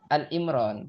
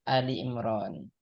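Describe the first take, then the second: First: The first part is said as short 'Al'. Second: The first part is said as two-syllable 'Ali'. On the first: The speaker calls it wrong. "Kadang-kadang kita itu menyebutnya surah Al-Imran" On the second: The speaker calls it right. "padahal itu Ali Imran"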